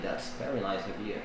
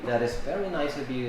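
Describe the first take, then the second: First: It is said as one contracted word, 'that's'. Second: It is said as two full words, 'that is'. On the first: "you may say" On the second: "instead of saying"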